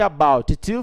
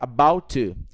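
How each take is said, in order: First: Both t sounds in 'about to' are pronounced. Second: The first t is dropped, leaving one t.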